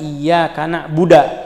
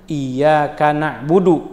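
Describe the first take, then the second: First: The last word ends in a, na'buda. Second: The last word is na'budu, with u vowels. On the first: The speaker calls it wrong. "dia baca ... misalnya" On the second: The speaker calls it right.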